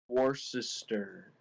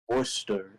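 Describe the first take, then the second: First: Every letter is sounded out as written. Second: Boston accent, starting with wool instead of war. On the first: "like it's spelled Worcester" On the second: "if you put a like Boston accent, like you're not gonna say war, you're gonna say wool"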